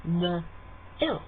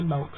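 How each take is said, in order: First: "m-ilk" with the vowel split into a glide; drawn-out m-ilk. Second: "milk" said flat, like "mulk"; Kiwi milk. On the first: Explaining the two-part vowel, a drawn-out "m-ilk". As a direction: stretch "m-ilk" into two little sounds. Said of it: "what you're actually doing ... is saying". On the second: Showing how New Zealanders say it, Kiwi "milk". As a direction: flatten "milk" to one dull vowel. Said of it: "we can't be bothered with two sounds". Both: Shown as a demonstration.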